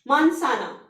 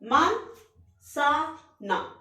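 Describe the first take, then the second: First: The word is said smoothly as one unit. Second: The word is split into separate syllables.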